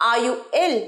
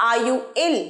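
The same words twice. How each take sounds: The two takes are said the same way.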